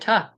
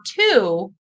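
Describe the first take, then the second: First: The word has a short, weak vowel. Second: The word has a full, long vowel. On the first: "It's reduced to tuh" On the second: "you might have learned that this is two"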